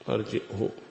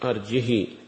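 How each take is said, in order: First: A glottal stop comes first; the final h takes u. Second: No glottal stop; the final h takes long i. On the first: "بالهمزة وضم الهاء" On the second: "يشبعان الهاء كسرا، ربما يتولد منها الياء"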